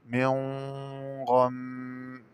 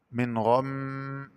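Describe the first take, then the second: First: من غم with the n hidden in a held nasal hum before gh; long ghunna linking من to غم; hidden nun. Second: Said in the usual way. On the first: Shown as a demonstration. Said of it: "بإخفاء النون الساكنة عند الغين مع الغنة". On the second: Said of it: "قرأ بإخفاء النون الساكنة".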